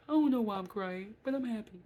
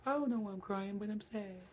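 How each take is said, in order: First: Much louder, higher, overjoyed through tears; mock happy crying. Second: Higher, a mild imitation of crying in sorrow; mock sad crying. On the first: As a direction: imitate someone laughing-crying with joy. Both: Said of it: "some people be like".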